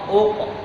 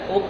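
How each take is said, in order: First: The q sound is heavy and thick. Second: The q sound is thin and light. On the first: The speaker calls it right. "Padahal dia qaf" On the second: The speaker calls it wrong. "terlalu menipiskan qaf"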